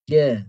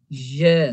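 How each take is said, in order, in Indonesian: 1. Suku katanya diucapkan tanpa napas yang terdengar. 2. Suku katanya diucapkan dengan napas yang terdengar saat dilepas. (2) "dia masukkan nafas"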